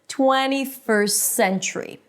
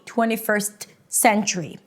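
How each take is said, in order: First: The T is dropped, joining the words smoothly. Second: The T is pronounced, making it sound choppy. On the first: The speaker calls it right. "I just eliminate the T... I say it fast and I put the two words together, combining them with one S. Listen" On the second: The speaker calls it wrong. "That's not how you want to say it"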